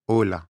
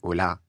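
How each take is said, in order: First: The stress falls on the first syllable. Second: The stress falls on the last syllable. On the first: It sounds like a Spanish speaker. The speaker calls it right. "L'accent tonique en espagnol, il est sur le o" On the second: It sounds like a French speaker. The speaker calls it wrong. "j'accentue la fin et donc nous, on dit"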